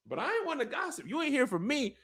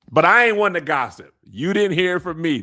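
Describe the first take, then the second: First: Much higher, much softer, fast gossip impression; hushed gossip. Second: Light Miss Bonita gossip voice, louder. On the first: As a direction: squeak the secret out quickly under your breath. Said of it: "That's what Ulf said". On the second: Retold or imitated. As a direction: lean in like the sitcom gossip lady. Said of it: "Miss Bonita, yeah".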